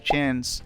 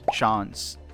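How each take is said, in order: First: It is said in an American accent. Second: It is said in a British accent. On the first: "instead of" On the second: "he speaks with a British accent"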